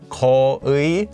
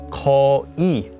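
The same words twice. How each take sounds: First: The second syllable has the full 'ui' vowel. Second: The second syllable has a plain 'i' vowel. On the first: This makes the spelling clear to the listener. "you might want to say it as 거의, so it's more clear how you're spelling it" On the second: This sounds more natural in everyday speech. "most often pronounced as"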